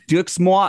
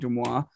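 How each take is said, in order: First: The name is read with English-style sounds. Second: The name is read with French-style sounds. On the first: The speaker calls it wrong. "like I didn't know how French worked" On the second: The speaker calls it right. "the correct pronunciation being Demois"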